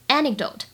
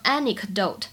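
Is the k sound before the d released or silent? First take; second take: silent; released. First: The k sound before the d is silent. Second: The k sound before the d is fully released. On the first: The speaker calls it right. "前者呢有一个完全失去爆破，只做口型，基本上不发音" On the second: The speaker calls it wrong. "大家不要读成anecdote"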